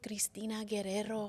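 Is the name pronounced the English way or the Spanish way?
Spanish. The name is said with a Spanish pronunciation. This is how the producer asked her to say it. "I've never said my name like that"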